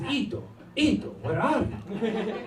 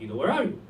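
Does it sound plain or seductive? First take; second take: seductive; plain. First: It is said in a sultry, seductive way. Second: It is said in a plain, neutral way.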